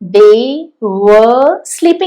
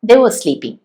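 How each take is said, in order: First: The word 'were' is long and full. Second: The word 'were' is short and reduced. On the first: The speaker calls it wrong. "അല്ല; നീളത്തിൽ പറയുമായിരിക്കും" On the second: The speaker calls it right. "ആ വീക്ക് form use ചെയ്താൽ മതി"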